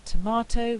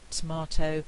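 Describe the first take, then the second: First: "tomato" with a clear first vowel; full tomato. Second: "tomato" as "tmato"; elided tomato. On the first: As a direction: say "tomato" fully. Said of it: "we get tomato". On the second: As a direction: drop the first vowel of "tomato". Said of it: "We've lost the vowel altogether". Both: Shown as a demonstration.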